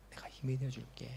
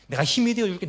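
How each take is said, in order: First: 힘이 barely voiced, softly whispered; "힘이" hushed, whispered low and soft; whispered promise. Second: "힘이" said higher and louder; "힘이" punched out loud and high; fervent promise. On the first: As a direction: whisper "내가 힘이 되어줄게" gently. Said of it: "주님께서 말씀하십니다". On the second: Acted. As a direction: proclaim "내가 힘이 되어 줄게" with force. Comforter promising help.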